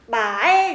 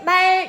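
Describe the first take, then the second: First: The pitch starts low and rises to high. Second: The word is said on a high, level pitch. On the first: "낮았다가 높아지는 소리였죠" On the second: "이렇게 높게 읽는 거"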